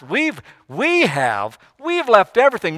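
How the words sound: It is said in a proud, boastful tone. The sacrifice is something to boast about. "Was Peter going kind of proudly"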